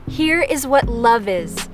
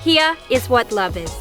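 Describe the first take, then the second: First: It is said in a plain, neutral accent. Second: It is said in a New Jersey accent.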